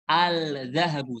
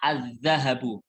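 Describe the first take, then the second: First: The L of the article is pronounced clearly. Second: The L merges into the following consonant. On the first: The speaker calls it wrong. "Jangan bacanya al-zahabu. ... Salah" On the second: The speaker calls it right. "Tapi bacanya az-zahabu"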